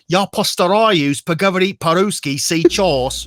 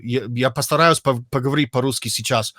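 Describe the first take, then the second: First: Slow, higher Russian with a British accent. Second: Said in the usual way. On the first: Shown as a demonstration. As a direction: drag out the Russian like a Brit. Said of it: "you can hear that they're British". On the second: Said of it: "so it's like".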